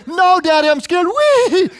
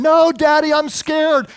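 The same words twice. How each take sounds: First: Put-on much higher, louder little-boy voice sliding from fear into a slow gleeful wee; scared then thrilled child. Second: Imitating a frightened little boy, much higher and a bit louder; scared child's cry. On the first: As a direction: play the boy who's scared and loving it at once. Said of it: "I said, and then". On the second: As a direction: squeal it like a scared kid on a four-wheeler. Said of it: "he was screaming the whole time".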